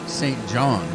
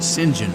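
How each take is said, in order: First: The name is said with a French pronunciation. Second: The name is said with an English pronunciation. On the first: "they pronounce it Saint John in France" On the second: "in England, they pronounce it Saint John"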